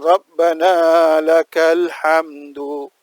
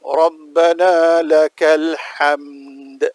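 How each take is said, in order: First: The last word ends with an added 'u' vowel. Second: The last word ends on a bare 'd' consonant. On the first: The speaker calls it wrong. "Itu salah dari segi bacaan" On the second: The speaker calls it right. "Dalnya dimatikan"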